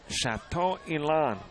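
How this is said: The name gets a careful French-style pronunciation. "taking a stab at what I believe to be maybe the pronunciation"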